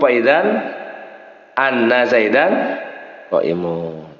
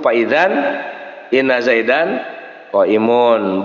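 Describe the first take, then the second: First: The word after idzan starts with an a vowel. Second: The word after idzan starts with an i vowel. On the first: The clause acts as a verbal noun subject. "Kalau dibaca fathah berarti di situ menjadi mubtada" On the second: The words form a full nominal sentence. "kalau dibaca inna berarti inna zaidan itu jadi jumlah"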